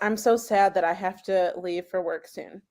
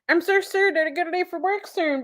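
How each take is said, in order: First: The words are said normally, without extra R sounds. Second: Extra R sounds are thrown into the words. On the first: "I'm gonna say" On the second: "I'll say it in our language"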